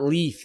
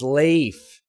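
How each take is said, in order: First: The name sounds like the word leaf. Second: The name does not sound like leaf. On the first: The speaker calls it wrong. "It's not Leaf" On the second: The speaker calls it right. "it's Leif, apparently"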